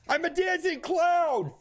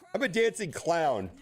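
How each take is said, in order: First: It is shouted at full volume. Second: It is said at normal volume. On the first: "I said it just like that at full volume" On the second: "I didn't scream it at the top of my lungs"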